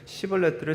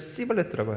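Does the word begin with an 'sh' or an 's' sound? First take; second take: sh; s. First: The word begins with an 'sh' sound. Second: The word begins with an 's' sound. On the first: The speaker calls it right. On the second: The speaker calls it wrong.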